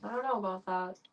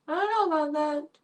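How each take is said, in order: First: Said in the usual way. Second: High, hammed-up doubtful voice; mock dramatic. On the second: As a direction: play it as a melodramatic doubter. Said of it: "Dramatic pause".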